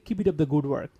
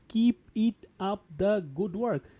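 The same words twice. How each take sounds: First: The words run together, linked smoothly. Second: The words are said separately, without linking. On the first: The speaker calls it right. "That's why we are linking here. We say" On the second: The speaker calls it wrong. "We do not say"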